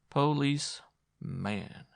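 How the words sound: The word is split in two with a break. "She broke the word in two"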